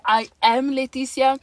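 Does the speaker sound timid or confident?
confident. It is said confidently, with conviction.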